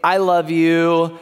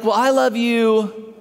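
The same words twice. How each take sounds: First: Said in the usual way. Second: One-upping. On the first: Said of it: "one of us will say". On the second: Retold or imitated. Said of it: "not to be outdone".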